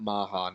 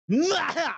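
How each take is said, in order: First: It is said plainly, with no dramatic flair. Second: It is said like the start of an evil laugh. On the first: The speaker calls it wrong. "It's not Maha" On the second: The speaker calls it right. "that is the beginning of a classical evil laugh"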